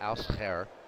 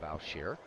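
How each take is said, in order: First: The name is said with a Dutch pronunciation. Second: The name is said with an American pronunciation. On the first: "I'll say it in Dutch" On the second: "the American pronunciation of Al Shear"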